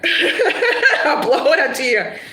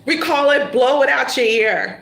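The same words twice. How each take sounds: First: Slow, drawn out through laughter; slow laughing repeat. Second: Said in the usual way. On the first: Shown as a demonstration. Reader relishing the phrase for the client, slow and laughing. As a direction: savour the phrase while laughing.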